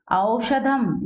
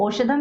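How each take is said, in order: First: औषधम opening on a slow "a-o" glide; au as diphthong. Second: औषधम begun with a single "o" sound; wrong plain o. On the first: Teacher modelling the word with two matras, au glide. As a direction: draw out a-o at the start of औषधम. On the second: Teacher showing how not to read it, plain o. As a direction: say औषधम as oshadham, no glide. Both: Shown as a demonstration. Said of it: "इसको औषधम नहीं पढ़ेंगे".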